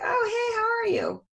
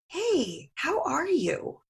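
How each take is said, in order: First: It sounds quick and offhand, not really asking. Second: It sounds warm and genuinely interested in the answer.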